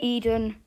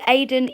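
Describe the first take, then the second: First: The name begins with an "ee" sound. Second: The name begins with an "ay" sound. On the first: The speaker calls it wrong. "I did low-key think it was Eden" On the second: The speaker calls it right. "it was pronounced Aiden"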